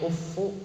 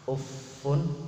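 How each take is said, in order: First: The word ends on a bare vowel, no n. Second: The word ends with an added n sound. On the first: "Ada yang membaca tanpa tanwin" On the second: "Jadi tanwin semua"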